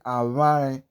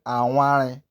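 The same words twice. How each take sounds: First: Aware with a squeezed, buzzing lip w; aware, air forced through the lips mid-word; correct vw pronunciation. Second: Aware with an open English w; aware, no air squeezed through the lips; mistaken plain w. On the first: Teacher contrasting two words, correct vw pronunciation. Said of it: "supposing you wanted to say aware". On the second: Teacher showing the wrong word, plain w. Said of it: "then you said aware". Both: Shown as a demonstration.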